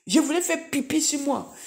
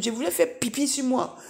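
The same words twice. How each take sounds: First: Higher, half-laughing confession; laughing embarrassment. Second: Said in the usual way. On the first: Real, not acted. The witness owning up to the church, half laughing. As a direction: giggle through the admission. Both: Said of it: "Excusez-moi du terme".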